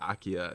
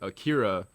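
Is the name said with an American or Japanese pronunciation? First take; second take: Japanese; American. First: The name is said with a Japanese pronunciation. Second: The name is said with an American pronunciation. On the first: The speaker calls it right. "I think they actually pronounce it Akia in the movie" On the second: The speaker calls it wrong. "I'm probably saying it wrong"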